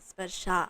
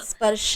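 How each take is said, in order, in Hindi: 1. शब्द दीर्घ स्वर पर समाप्त होता है। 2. शब्द ह्रस्व स्वर पर समाप्त होता है। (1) "स्पर्शा है, ... आ लंबा करो" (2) "स्पर्श नहीं है"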